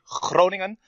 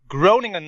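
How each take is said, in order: First: The name is pronounced the native Dutch way. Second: The name is pronounced the English way. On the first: "in my country you say Groningen, but that's even more difficult to pronounce" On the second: "so I'm just going to say it that way"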